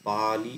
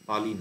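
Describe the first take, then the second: First: The first vowel is drawn out long. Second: The first vowel is kept short. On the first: The speaker calls it right. "পা তে একটু টান পড়লো তারপর লিটা হর্স্য হলো" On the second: The speaker calls it wrong. "না"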